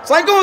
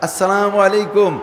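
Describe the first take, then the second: First: The greeting is clipped and said offhandedly. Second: The greeting is said fully, humbly and politely. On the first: The greeter shows little respect. The speaker calls it wrong. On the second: The greeter shows respect. The speaker calls it right.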